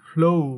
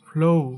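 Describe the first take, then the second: First: The vowel glides into an ou sound. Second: The same.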